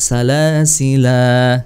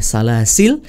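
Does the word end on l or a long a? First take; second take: long a; l. First: The word ends on a lengthened a vowel. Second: The word ends on a silent l. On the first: "boleh panjang" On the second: "kalau di waqaf la-nya boleh salasil"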